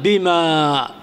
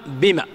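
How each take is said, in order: First: بما with a long drawn-out final a; with alif. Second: بما with a short final a; alif dropped. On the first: Teacher showing the wrong spelling, بما drawn out at the end. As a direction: stretch the last vowel of بما slowly. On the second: Teacher showing the correct form, بما ending short. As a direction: cut the last vowel of بما short. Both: Shown as a demonstration. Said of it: "تحذف الألف".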